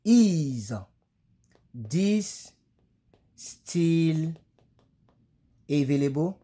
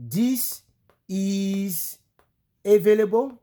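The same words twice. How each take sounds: First: "Is this still available?" slow, each word apart, verb first; right English order. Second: "This is available?" high, rising, in French-speaker's word order; a French speaker's wrong-order English question; francophone's English. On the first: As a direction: spell out the correct question slowly. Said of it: "Voilà la bonne manière". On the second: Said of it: "si c'était un francophone". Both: Shown as a demonstration.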